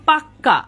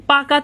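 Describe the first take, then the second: First: পাক্কা with a long double "kk"; doubled consonant. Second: Said in the usual way. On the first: Shown as a demonstration. Teacher showing the k doubled, geminated pronunciation. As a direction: close and hold the k in পাক্কা, pak-ka. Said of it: "কয়ের double উচ্চারণ হচ্ছে". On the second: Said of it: "পাকা থেকে যখন আমি বলবো".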